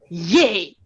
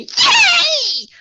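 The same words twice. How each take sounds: First: It is said in a low, settled voice. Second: It is said in a high, tense voice. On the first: It comes across with authority. The speaker calls it right. "settle it down, really from from your bottom" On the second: It comes across as inauthentic. The speaker calls it wrong. "high pitched ... really tense"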